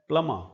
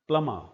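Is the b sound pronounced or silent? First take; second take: silent; silent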